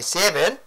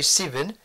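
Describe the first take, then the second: First: It is said in an Australian accent. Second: It is said in a New Zealand accent.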